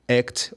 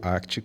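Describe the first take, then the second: First: The word is said without a regional Bahian accent. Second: The word is said with a Bahian regional accent. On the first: "eles preferem que você chame po- como ACT" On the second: "no meu sotaque aqui"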